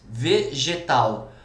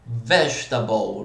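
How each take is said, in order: First: Said in the usual way. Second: Vegetable in English, low, slow, stressed on VE; English pronunciation. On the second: Shown as a demonstration. Teacher giving an English example, English pronunciation. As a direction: say vegetable as an English word, first syllable leading. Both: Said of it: "como que é vegetal em inglês?".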